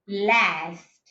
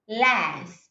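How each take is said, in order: First: It has a short front 'a' vowel. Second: The same.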